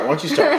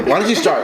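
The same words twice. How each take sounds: First: "start?" thrown up much higher with a rising end; high teasing repeat. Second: Said in the usual way. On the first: Real, not acted.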